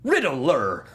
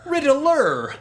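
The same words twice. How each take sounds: First: Said in the usual way. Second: High, exclaimed reveal; dramatic Riddler reveal. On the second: Retold or imitated. Quoting the clip's big reveal, a high exclamation. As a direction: announce the villain with a flourish. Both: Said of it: "quoting the clip".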